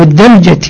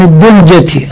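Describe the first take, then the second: First: الدلجة with a short a after the d; A vowel in الدلجة. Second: الدلجة with a short u after the d; U vowel in الدلجة. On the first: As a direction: say الدلجة as "ad-daljati". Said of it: "وإذا تقرأها بالفتح". (الدلجة بفتح الدال) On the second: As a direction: say الدلجة as "ad-duljati". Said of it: "الدلجة بالضم تقرأها". (الدلجة بضم الدال) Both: Shown as a demonstration.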